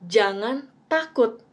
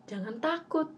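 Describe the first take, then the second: First: "Jangan takut" said slowly with weight on "takut"; slow, deliberate "Jangan takut" with "takut" stressed; emphasized line. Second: Gentle reminder. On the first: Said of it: "phrases yang aku tekankan". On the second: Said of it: "Padahal Tuhan bilang". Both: Shown as a demonstration.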